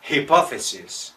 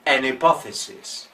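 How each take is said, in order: First: Hypothesis with a clearly breathed English H at the start; aspirated H. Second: Hypothesis with the H dropped, starting on the vowel; an hypothesis, no H sound at all; silent H. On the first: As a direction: sound the H in hypothesis, the wrong way. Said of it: "No decimos hypothesis". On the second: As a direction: hypothesis said as ipothesis. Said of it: "es muda". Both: Shown as a demonstration.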